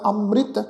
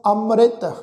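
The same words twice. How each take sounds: First: ਅੰਮ੍ਰਿਤ said as əmrɪt; ਅੰਮ੍ਰਿਤ with the i vowel on the ਰ; correct pronunciation. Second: ਅੰਮ੍ਰਿਤ said as amret; ਅੰਮ੍ਰਿਤ with an e vowel on the ਰ; wrong pronunciation. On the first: Teacher giving the right way to say ਅੰਮ੍ਰਿਤ. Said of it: "ਸਿਹਾਰੀ ... ਰਾਰੇ ਨੂੰ ਲੱਗ ਕੇ ਉਚਾਰਨ". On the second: Teacher warning against saying ਅੰਮ੍ਰਿਤ this way. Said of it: "ਇਸ ਢੰਗ ਨਾਲ ਉਚਾਰਨ ਨਹੀਂ ਕਰਨਾ". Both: Shown as a demonstration.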